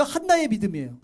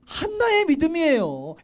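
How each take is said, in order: First: Said in the usual way. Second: Insistent stress on "한나의"; emphatic repeat. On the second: Real, not acted. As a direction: lean hard and high on "한나의". Repeats question emphasizing Hannah.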